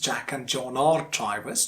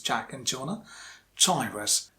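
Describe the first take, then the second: First: The word 'are' is said in its full form. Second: The word 'are' is said in its reduced form. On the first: The speaker calls it wrong. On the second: The speaker calls it right. "you have to use the weak form"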